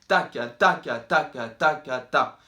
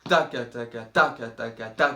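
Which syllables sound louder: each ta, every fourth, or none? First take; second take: each ta; every fourth. First: Every ta is louder than each ka. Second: A strong accent falls every fourth beat. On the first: "quand on fait ta, ça peut être plus fort" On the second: "un gros à-coup tous les quatre temps"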